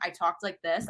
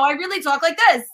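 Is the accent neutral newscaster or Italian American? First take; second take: neutral newscaster; Italian American. First: It is said in a neutral newscaster accent. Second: It is said in her natural Italian American accent.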